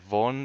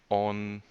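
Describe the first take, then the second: First: The word begins with a v sound. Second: The word begins directly with the vowel. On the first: This is the colloquial, slang form. "that's the slang" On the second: This is the standard, correct form. "that's the correct version"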